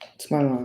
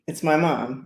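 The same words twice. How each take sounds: First: It is said in a flat, unexcited way. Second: It is said in an excited, enthusiastic way.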